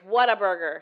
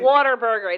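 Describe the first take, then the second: First: The first part sounds like the word what. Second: The first part sounds like the word water. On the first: The speaker calls it right. "There's an H" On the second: The speaker calls it wrong. "it's not Waterburger"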